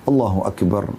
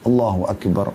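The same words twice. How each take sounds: Both takes have the same delivery.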